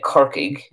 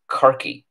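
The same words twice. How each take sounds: First: Kirkig said with a hard g at the end; standard Irish pronunciation. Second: Kirky said ending in an ee sound; Kirky with no g, just a final ee; Ulster pronunciation. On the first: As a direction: say Kirkig the way the teacher does, KIR-kig. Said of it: "So I would say Kirkig". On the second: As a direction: say Kirky the Ulster way, KIR-kee. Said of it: "in Ulster it's probably pronounced Kirky". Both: Shown as a demonstration.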